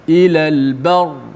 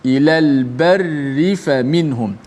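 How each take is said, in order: First: The r is heavy and the word stops there. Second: The r is light and flows into the next word. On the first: The reading stops at this word. "dibaca dengan tebal" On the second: The reading continues without stopping. "barri dibaca dengan nipis, dibaca dengan wasal"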